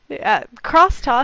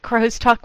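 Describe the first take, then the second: First: The first part sounds like 'cross' with an s. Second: The first part sounds like 'crow's' with a z. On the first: The speaker calls it right. "Don't do that. You'll embarrass your poor self like I did" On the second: The speaker calls it wrong. "I have pronounced it crow's talk when giving a talk on it"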